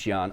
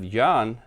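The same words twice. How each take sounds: First: Jan as "Yahn" with a longer vowel. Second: Jan as "Yahn" with the shorter vowel; plain short-vowel "Yan" for Jan; Jan without G. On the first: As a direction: lengthen the "ah" in Jan. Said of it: "but with the G it's". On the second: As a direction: say Jan with a Y and no added length. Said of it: "without a G". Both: Shown as a demonstration.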